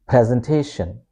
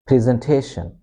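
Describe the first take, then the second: First: "presentation" with PREZ, short E; short E as in pen starting "presentation"; British pronunciation. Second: "presentation" with PREE, long EE; double-E sound starting "presentation"; American pronunciation. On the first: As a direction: say "presentation" as PREZ-en-TAY-shun. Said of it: "pronounce this E as it is in pen". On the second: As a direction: say "presentation" as PREE-zen-TAY-shun. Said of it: "becomes double E sound". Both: Shown as a demonstration.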